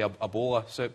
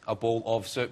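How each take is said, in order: First: The word 'of' is cut down to 'a'. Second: The word 'of' is pronounced in full. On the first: "We say a" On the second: "you don't say"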